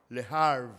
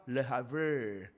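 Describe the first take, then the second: First: Havre cut to one syllable, "harv"; retry Havre as plain "harv", no end vowel; second attempt pronunciation. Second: Havre drawn out with an extra end syllable, "hav-RAY"; struggled pronunciation. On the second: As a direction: try Havre as two syllables, low and unsure. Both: Real, not acted. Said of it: "Give up".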